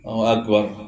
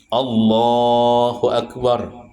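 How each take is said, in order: First: The opening word of the phrase is dropped. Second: Every sound of the phrase is fully pronounced. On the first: The speaker calls it wrong. "mana Allahnya?" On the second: The speaker calls it right. "bujur-bujur mengucapkannya"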